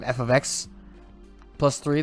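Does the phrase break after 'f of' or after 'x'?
after x. The phrase breaks after x, before plus three. Three is added to the whole function. "the function plus three"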